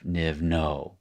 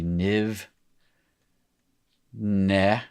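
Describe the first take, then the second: First: Niv no, second word with an oh vowel; no ending. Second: Niv ne, second word with an eh vowel; ne ending. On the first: Teacher cites the form being replaced, niv no with oh. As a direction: say no with a round oh, not eh. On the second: Teacher gives students the corrected form, niv ne with eh. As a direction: say ne with an open eh, not oh. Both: Shown as a demonstration. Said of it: "instead of niv, no".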